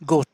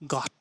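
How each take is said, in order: First: The vowel sounds like a long oh. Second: The vowel sounds like a short ah. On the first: The speaker calls it wrong. "না না না, গোট না" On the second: The speaker calls it right.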